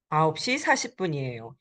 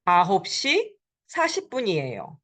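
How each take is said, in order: First: 아홉 시 사십 분이에요 again, quicker and a bit softer; quick teacher echo; faster, softer repeat. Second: 아홉 시 사십 분이에요 rattled off quickly as a whole; quick teacher demo; fast model answer. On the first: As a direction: run 아홉 시 사십 분이에요 together fast. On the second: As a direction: say 아홉 시 사십 분이에요 brisk and smooth, falling at the end. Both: Shown as a demonstration. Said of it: "It is nine forty".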